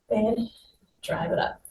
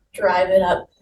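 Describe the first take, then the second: First: "drive it up" whispered, almost no voice; breathy near-whisper. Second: Said in the usual way. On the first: Shown as a demonstration. Coach whispering the cue during knee drives.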